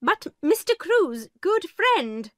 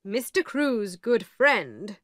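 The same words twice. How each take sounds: First: Miss Minchin protesting. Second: The lawyer. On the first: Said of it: "began Miss Minchin". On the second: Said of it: "said the lawyer". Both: A narrator's reading.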